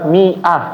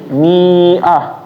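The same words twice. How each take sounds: First: The alif is silent, giving a short middle vowel. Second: The alif is sounded, giving a long middle vowel. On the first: The speaker calls it right. "dibacaannya adalah mi'ah" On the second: The speaker calls it wrong. "Jangan dibacanya menjadi mi'ah"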